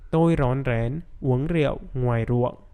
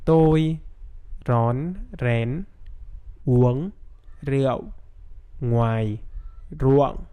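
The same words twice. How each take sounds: First: The sentence is spoken at normal speed. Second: The sentence is spoken very slowly. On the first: "Now with normal speed" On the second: "I'm gonna say the sentence very, very slowly"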